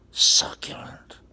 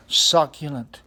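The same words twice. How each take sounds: First: Slow, hushed whisper of delight; savoring whisper. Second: Said in the usual way. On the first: Acted. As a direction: whisper it slowly like a delicacy. Savoring the bread word, whispered.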